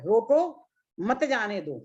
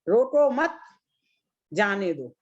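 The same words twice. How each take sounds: First: There is a pause after the first word. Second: There is a pause after the second word. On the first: Stop the person from leaving. "पहले मैंने बोला रोको, तो यहाँ में मैंने comma लगाया है, ब्रेक दिया है।" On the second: Let the person go. "इसका अपोजिट अर्थ हो गया।"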